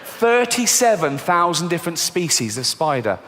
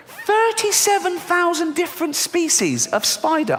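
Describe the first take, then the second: First: Said in the usual way. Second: Repeated much higher in disbelief; high incredulous. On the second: Shown as a demonstration. Dreading spiders, repeating the number high and aghast. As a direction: squeak it again in horror. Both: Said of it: "repeated higher".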